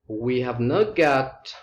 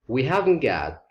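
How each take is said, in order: First: All four words are said in full. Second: Have and not are joined into one word. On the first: "We have not got becomes we haven't got" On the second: "becomes we haven't got"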